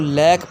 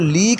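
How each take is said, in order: First: The vowel is an open 'ai' sound. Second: The vowel is a long 'ee' sound. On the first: The speaker calls it right. "बल्कि इसको लैक पढ़ना है" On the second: The speaker calls it wrong. "इसको लीक नहीं पढ़ना"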